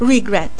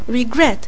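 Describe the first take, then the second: First: The stress is on the first syllable. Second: The stress is on the second syllable. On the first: The speaker calls it wrong. "Nu zic regret" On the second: The speaker calls it right. "Accentul e pe gret"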